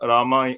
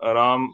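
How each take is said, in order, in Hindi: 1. नाम का अंत एक अंतिम स्वर से होता है। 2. नाम एक बिना स्वर वाले व्यंजन पर खत्म होता है। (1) "संस्कृत में रामा हो जाता है" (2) "हिंदी में राम"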